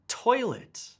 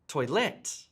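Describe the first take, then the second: First: The stress is on the first syllable. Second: The stress is on the second syllable. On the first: The speaker calls it right. "Listen to how I emphasize the first part of the word" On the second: The speaker calls it wrong. "I don't say"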